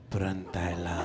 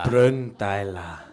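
First: It is said in a sensual voice. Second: It is said in a plain voice.

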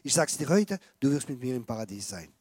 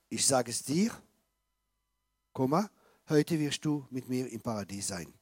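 First: The pause comes after 'heute'. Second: The pause comes before 'heute'.

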